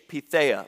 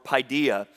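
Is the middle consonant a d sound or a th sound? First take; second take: th; d. First: The middle consonant is a th sound. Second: The middle consonant is a d sound. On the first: The speaker calls it right. "So the D sounds like a TH" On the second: The speaker calls it wrong. "it looks like it would be pronounced paideia"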